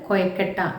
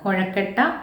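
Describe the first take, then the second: First: The middle consonant is a plain 'y' sound. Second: The middle consonant is a retroflex 'zh' sound. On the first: This is how the word is said in one region. "പ്രാദേശികമായിട്ട് കൊയക്കട്ട എന്ന് പറയുന്ന" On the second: This is the standard form of the word. "കൊഴക്കട്ട എന്ന പദം"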